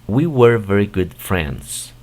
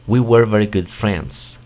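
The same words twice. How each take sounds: First: It is said at a slower pace. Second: It is said at a faster pace.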